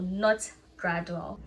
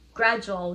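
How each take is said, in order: First: The middle consonant is a plain 'd' sound. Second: The middle consonant is a 'j' sound. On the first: The speaker calls it wrong. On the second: The speaker calls it right. "Gradual, not gradual"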